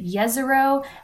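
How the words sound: The name is said in a Bosnian way. This is how locals in that region say it. "folks in the Bosnia-Herzegovina area say Jezero"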